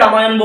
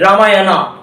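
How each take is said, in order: First: The name ends on the 'n' consonant. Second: The name ends with a final 'a' vowel. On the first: This is the form used in Bengali. "বাংলায় যেটাকে রামায়ণ বলি আমরা" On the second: This is the form used in English. "রামায়ণা বলা হয়"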